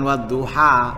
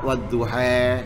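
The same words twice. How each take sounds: First: The final vowel is a plain open 'a'. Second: The final vowel is tilted toward 'e'. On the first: The speaker calls it wrong. "jangan wadduha" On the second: The speaker calls it right. "kalau imalah ya imalah kabeh"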